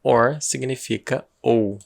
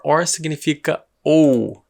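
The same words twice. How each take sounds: First: Slow, repeated for emphasis; slow explanation again. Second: Slowly spelled out for learners; slow explanation. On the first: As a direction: say it slowly again to drive it home. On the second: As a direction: stretch it so students catch it. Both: Shown as a demonstration. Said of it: "O que significa or".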